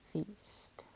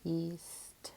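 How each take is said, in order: First: Said in the usual way. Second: "feast" split into f, then east; sounded out. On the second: Shown as a demonstration. Teacher decoding a word, "feast" sounded out in parts. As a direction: hold the f apart, then say the rest of "feast". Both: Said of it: "So my word is".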